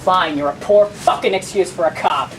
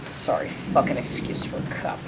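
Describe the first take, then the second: First: Loud, defiant retort; open insult. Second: Low, near-whispered jibe; muttered insult. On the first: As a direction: say the insult out loud, punching the words. Insult repeated aloud when challenged. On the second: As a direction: mutter it under your breath, barely voiced. Muttered insult at departing officer. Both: Acted.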